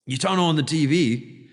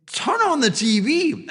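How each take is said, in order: First: Said in the usual way. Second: High and louder "Turn on the T V"; urgent broker. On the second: Retold or imitated. Broker telling Jim to look at the news, high and urgent. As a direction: bark it like an urgent order. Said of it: "he's like".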